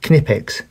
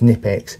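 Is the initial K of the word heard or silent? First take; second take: heard; silent. First: The first K is clearly sounded. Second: The first K is silent. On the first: The speaker calls it right. "Knipex with a hard K" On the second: The speaker calls it wrong. "Knipex with a silent K"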